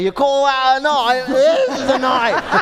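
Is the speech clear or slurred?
slurred. It is spoken with a drunken slur.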